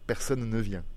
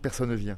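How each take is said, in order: First: The two n sounds are clearly separated. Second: The two n sounds are run together. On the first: The speaker calls it right. "fassent attention à dire personne ne vient" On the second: The speaker calls it wrong. "J'ai pas du tout envie d'entendre personne ne vient"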